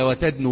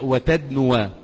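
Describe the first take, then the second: First: The word ends plainly on the 'u' vowel. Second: The word ends with an added final 'a' vowel. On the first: The speaker calls it wrong. "وتدنو بس؟" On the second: The speaker calls it right. "وعلامة نصبه الفتحة الظاهرة على الواو"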